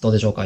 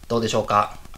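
First: The audio sounds muffled and dull. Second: The audio sounds clear and crisp. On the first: The speaker calls it wrong. "いつも通りこもってますでしょうか？" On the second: The speaker calls it right. "明らかに音質が上がっていると思いますが"

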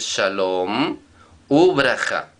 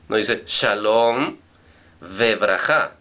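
First: The word for 'and' is pronounced 'u'. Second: The word for 'and' is pronounced 've'. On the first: The speaker calls it right. "dices shalom ubraja" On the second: The speaker calls it wrong. "tú no dices shalom vebraja"

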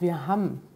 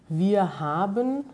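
First: The verb ends in an m sound, like ham. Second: The verb is said in full as haben.

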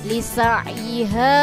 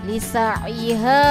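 Both takes have the same delivery.

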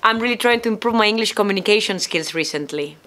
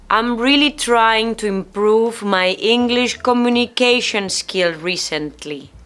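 First: The sentence is spoken at a faster pace. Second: The sentence is spoken at a slower pace.

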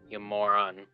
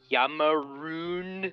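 First: The insult is said as 'moron'. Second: The insult is said as 'maroon'.

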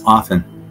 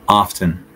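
First: The T in the middle is silent. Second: The T in the middle is pronounced. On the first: The speaker calls it right. "The T is basically silent, so it's often" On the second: The speaker calls it wrong. "I'll tell you the incorrect way first"

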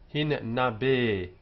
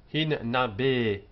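No difference in how they are said.

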